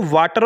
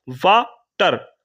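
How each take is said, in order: First: Said in the usual way. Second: water very slowly, broken as वा, pause, टर; split into syllables. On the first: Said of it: "आपने कोई break नहीं लिया". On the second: Shown as a demonstration. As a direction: break water in two with a clear gap after वा. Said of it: "पहले आपने बोला वा".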